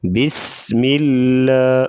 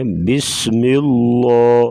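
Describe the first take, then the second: First: "بسم اللہ" slowly, light ل with a clear a vowel; thin laam. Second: "اللہ" with a heavy ل, rounded towards "illo"; wrongly thick laam. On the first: Teacher shows the right reading after zer, thin laam in "اللہ". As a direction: keep the ل of "اللہ" thin, not rounded. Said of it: "زیر ہوگی تو اس کو باریک". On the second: Teacher imitates some readers' mistake, heavy rounded laam in "اللہ". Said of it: "یہ ایسے پڑھنا غلط ہے". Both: Shown as a demonstration.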